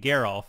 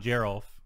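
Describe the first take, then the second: First: The name starts with a hard G sound. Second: The name starts with a soft G sound. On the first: The speaker calls it right. "there's no like soft G's in German" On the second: The speaker calls it wrong. "not Gerolf"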